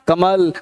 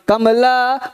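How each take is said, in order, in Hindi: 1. यह शब्द बिना स्वर वाली व्यंजन ध्वनि पर खत्म होता है। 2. यह शब्द पूरे अंतिम स्वर पर खत्म होता है। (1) "कमला नहीं है कमल है" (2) "कमला नहीं होगा"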